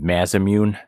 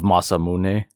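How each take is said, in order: First: The name is said with a Western-style pronunciation. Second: The name is said with a Japanese-style pronunciation.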